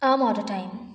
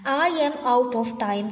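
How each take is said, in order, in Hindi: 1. शब्द छोटे करके और आपस में जोड़कर बोले जाते हैं। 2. हर शब्द पूरा और अलग-अलग बोला जाता है। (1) "बोलेंगे" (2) "के बजाय"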